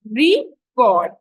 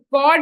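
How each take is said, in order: First: "record" with deliberate weight on the first syllable; noun stress on RE. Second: "record" as a verb, weight on CORD; "record" with the first syllable reduced, CORD carrying it; verb stress on CORD. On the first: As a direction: say "record" as a noun, RE-cord, with a gap. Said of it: "stress is on the first syllable when it is a noun". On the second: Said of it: "on the second syllable when it's a verb". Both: Shown as a demonstration.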